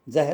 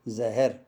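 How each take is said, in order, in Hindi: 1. "h" और "r" के बीच कोई स्वर नहीं सुनाई देता। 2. "h" और "r" के बीच एक स्वर सुनाई देता है। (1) "जहर उर्दू में हा में हलंत लगेगा" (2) "हिंदी में इसको जहर बोला जाता है"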